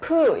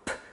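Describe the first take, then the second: First: The p sound is followed by an oo vowel. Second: The p sound has no oo vowel after it. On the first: The speaker calls it wrong. "푸 이렇게 하지 마시고" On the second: The speaker calls it right. "프 성대가 울리지 않아요"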